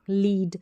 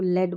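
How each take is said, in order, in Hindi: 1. इस स्वर की आवाज़ लंबी ee है। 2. इस स्वर की आवाज़ छोटी e है। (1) "अगर आपको नहीं पता होगा तो इसको लीड पढ़ देंगे" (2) "उसको लेड बोलेंगे"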